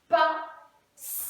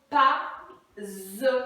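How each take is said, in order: First: The middle consonant is a hissing s sound. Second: The middle consonant is a buzzing z sound. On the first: The speaker calls it right. "Il a donc besoin cette fois-ci de son cousin" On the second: The speaker calls it wrong. "Il va zozoter"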